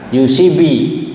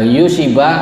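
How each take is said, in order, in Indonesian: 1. Vokal kuncinya adalah bunyi 'i' tertutup. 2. Vokal kuncinya adalah bunyi 'a' terbuka. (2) "bi fathi"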